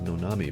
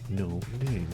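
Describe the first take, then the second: First: It is said as one three-syllable word. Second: It is said as two one-syllable words. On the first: The speaker calls it wrong. "I was pronouncing it Nonami" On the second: The speaker calls it right. "but it's no name"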